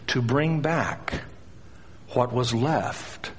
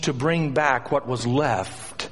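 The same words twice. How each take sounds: First: It is spoken slowly and deliberately. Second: It is spoken at a normal pace.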